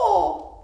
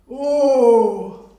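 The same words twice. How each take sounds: First: It is said in a monkey-like voice. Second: It is said in an elephant-like voice. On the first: "Say it like a monkey" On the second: "say that one like an elephant"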